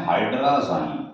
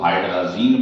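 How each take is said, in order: First: हाइड्राज़ाइन ending in a long "-zine" that rhymes with "sign"; alternative pronunciation. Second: हाइड्राजीन ending in a long "ee", like "zeen"; common variant pronunciation. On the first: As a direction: say हाइड्राज़ाइन with an "eye" vowel in the last syllable. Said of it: "या कई लोग हाइड्राजीन बोल देते हैं". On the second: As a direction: say हाइड्राजीन with an "ee" vowel in the last syllable. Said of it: "कई लोग हाइड्राजीन बोल देते हैं". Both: Shown as a demonstration.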